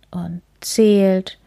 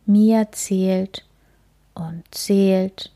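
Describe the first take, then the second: First: Said in the usual way. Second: Drowsy whisper. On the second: A narrator's reading. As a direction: breathe it, sleepy and hushed. Counting to fall asleep.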